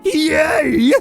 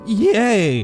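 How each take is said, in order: First: It is said brightly, with lots of enthusiasm. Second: It is said flatly, with little enthusiasm. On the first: "Let me try that again" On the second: "I meant to sound more enthusiastic there"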